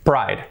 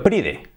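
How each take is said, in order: First: Said in the usual way. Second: "pride" read as PREE-deh, Spanish-style; two syllables in "pride", final e sounded; spelling pronunciation. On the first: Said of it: "por lo tanto". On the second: Shown as a demonstration. Teacher showing how orgullo is written, spelled-out reading. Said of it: "Escrito pride".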